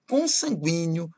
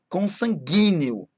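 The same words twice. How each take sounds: First: The u after the g is pronounced. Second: The u after the g is silent. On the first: The speaker calls it right. "pronunciar como ditongo" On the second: The speaker calls it wrong. "É errado falar"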